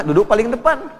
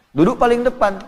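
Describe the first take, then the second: First: Louder, higher call to sit at the front; emphatic instruction. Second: "paling" hit hard with a falling tune; stress on paling. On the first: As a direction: press the point on depan. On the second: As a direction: lean on "paling" in "Duduk paling depan". Emphatic repeated instruction. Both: Acted.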